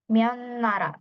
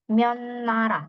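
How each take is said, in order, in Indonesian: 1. Kata pertama diakhiri dengan bunyi n. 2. Kata pertama diakhiri dengan bunyi n.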